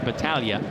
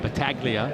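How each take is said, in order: First: The name is said with an Italian pronunciation. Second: The name is said with an English pronunciation. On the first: "or Italian pronunciation" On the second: "depending on your English"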